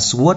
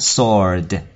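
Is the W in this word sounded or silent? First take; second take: sounded; silent. First: The W sound is pronounced in the word. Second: The W is silent, with a long O. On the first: The speaker calls it wrong. "Rất nhiều bạn đọc từ này là sword nhưng không phải đâu nha" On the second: The speaker calls it right. "chỉ có là âm O dài thôi, ... cái chữ W là âm câm"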